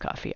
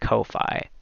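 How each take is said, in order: First: It is said like the drink, coffee. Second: It is said as two separate parts, Ko-Fi. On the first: "I know it's pronounced coffee" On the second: "what if I just pronounced it Ko-Fi? Cuz it's got a hyphen in it"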